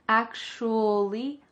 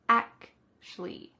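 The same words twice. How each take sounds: First: The word is said clearly with an oo vowel. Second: The word is reduced, sounding like ac-shly. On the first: "We could say it a little bit clearly, ... with an oo vowel" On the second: "Or we can reduce it further"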